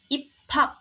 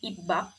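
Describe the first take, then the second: First: The middle consonant is an aspirated p. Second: The middle consonant is a plain b. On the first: The speaker calls it right. "biepnya berubah jadi piep karena bertemu dengan hyet" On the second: The speaker calls it wrong. "bukan ibak"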